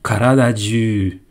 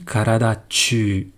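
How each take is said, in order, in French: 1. Le dernier mot commence par un son « j ». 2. Le dernier mot commence par un son « ch ». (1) "j'aurais dit karada du" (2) "j'aurais pas dit karada tu"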